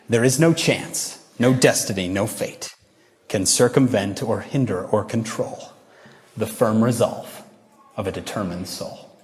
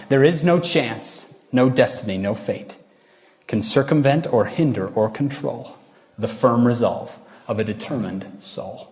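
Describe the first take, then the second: First: Poem recitation. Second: Poem recitation again. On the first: Acted. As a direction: recite it deliberately, word by word. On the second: Shown as a demonstration. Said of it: "I'll say it one more time".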